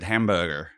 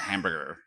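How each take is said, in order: First: It is said with a British accent. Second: It is said with an American accent. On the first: This is how the speaker said it. "I said hamburger" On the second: This is how others expected it said. "and not hamburger"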